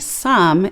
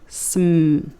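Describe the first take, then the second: First: A short vowel is inserted between the consonants. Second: The consonants are joined with no vowel between. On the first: The speaker calls it wrong. "you wouldn't say some" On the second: The speaker calls it right. "it would be sm"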